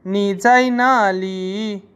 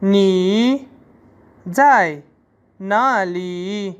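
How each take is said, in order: First: Slow, stress on जाई; teacher models sentence; Chinese sentence demo. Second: Each word separated, ना ली very slow; teacher spells sentence out. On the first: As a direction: say it slowly for learners. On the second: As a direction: break the sentence into words. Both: Shown as a demonstration. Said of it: "Chinese में होगा".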